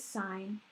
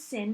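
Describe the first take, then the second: First: The vowel is long, like in 'line'. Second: The vowel is short, like in 'pin'. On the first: The speaker calls it right. "you actually pronounce it as sine" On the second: The speaker calls it wrong. "everyone reads it as sin"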